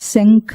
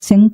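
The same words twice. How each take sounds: First: The middle consonant is said with aspiration. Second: The middle consonant is said without aspiration. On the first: It names the conch shell. The speaker calls it right. "శంఖ అంటే ఇది శంఖం" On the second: It names the intestines. The speaker calls it wrong. "శంఖ అనకూడదు"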